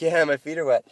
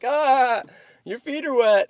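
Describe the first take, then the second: First: Said in the usual way. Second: High-pitched jeering of bar buddies; imitated group outcry, pitched way up; mock crowd teasing. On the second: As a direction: tease in a much higher voice. Bar crowd teasing his wet feet.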